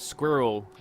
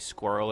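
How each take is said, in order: First: The word is said in a non-American accent. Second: The word is said in an American accent. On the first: The speaker calls it right. "a squirrel is a squirrel" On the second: The speaker calls it wrong. "Americans say squirrel, it doesn't make any sense"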